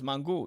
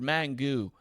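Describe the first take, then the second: First: It is said with a Spanish accent. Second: It is said with an English accent. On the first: The speaker calls it right. "It's mango" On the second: The speaker calls it wrong.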